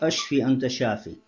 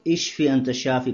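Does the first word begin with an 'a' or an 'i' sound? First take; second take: a; i. First: The first word begins with an 'a' vowel. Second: The first word begins with an 'i' vowel. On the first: It asks to be killed. The speaker calls it wrong. "Это ошибка, говорят ашфи анта шафи" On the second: It asks to be healed. The speaker calls it right. "нужно говорить «Ишфи анта шафи»"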